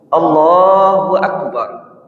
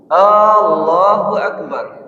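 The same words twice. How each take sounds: First: The opening vowel is kept short. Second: The opening vowel is drawn out long. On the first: It states that God is the greatest. The speaker calls it right. "tidak usah dipanjangkan ketika A-nya itu" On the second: It asks whether God is the greatest. The speaker calls it wrong. "ketika dipanjangkan A-nya itu"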